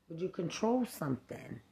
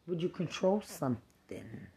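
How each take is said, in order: Both takes have the same delivery.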